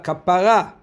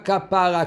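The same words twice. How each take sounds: First: The stress is on the last syllable. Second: The stress is on the second-to-last syllable. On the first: It means atonement. The speaker calls it right. "tu as besoin d'une kapara" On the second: It sounds like a word about a cow. The speaker calls it wrong. "Pas kapara comme une vache"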